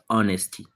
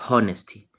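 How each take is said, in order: First: The word begins without any h sound. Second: The word begins with an audible h sound. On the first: The speaker calls it right. "this H is silent, so it is pronounced as honesty" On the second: The speaker calls it wrong. "not honesty"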